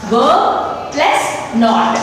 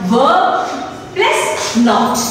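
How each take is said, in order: No difference in how they are said.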